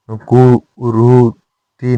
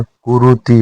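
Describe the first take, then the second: First: कुरुति slow with long vowels; incorrect form. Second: कुरुति said compactly; correct form. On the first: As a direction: break कुरुति into "koo-roo-tee". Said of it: "नहीं होता". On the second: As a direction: keep the vowels of कुरुति short. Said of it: "होता है". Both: Shown as a demonstration.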